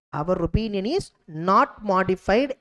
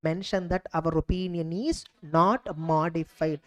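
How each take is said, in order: First: Slow, deliberate, each word set apart; slow dictation. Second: Said in the usual way. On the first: Shown as a demonstration. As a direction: dictate it slowly for students to copy. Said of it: "teacher repeats wording for students". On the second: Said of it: "teacher states standard wording".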